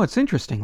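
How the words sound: It is said in an enthusiastic, admiring tone. The song is fascinating. "so that it doesn't come out like, oh"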